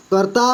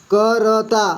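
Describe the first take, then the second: First: Said in the usual way. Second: करता split as क, र, ता; syllable by syllable. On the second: Shown as a demonstration. Teacher reading for beginners, करता syllable by syllable. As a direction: sound out करता slowly, letter by letter. Teacher spells word out, then blends.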